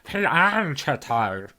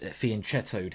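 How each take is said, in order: First: It is said in a put-on geeky voice. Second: It is said in his normal voice. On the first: A pedant is correcting the pronunciation. "I love that geeky voice to put on" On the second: This is the speaker's own pronunciation. "that's my way of, you know, pronouncing fianchettoed"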